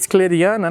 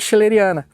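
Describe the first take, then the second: First: The name starts with a k sound. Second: The name starts with a sh sound. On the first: This follows the spelling of the name. "Porque com C H seria K" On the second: This is how nearly everyone in Brazil says it. "praticamente todo mundo fala schilleriana"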